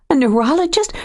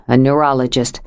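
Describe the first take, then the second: First: High, rising shocked question; alarmed echo. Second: Said in the usual way. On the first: A narrator's reading. Joe echoing Nathan's word, shocked and rising. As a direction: throw the word back in fear.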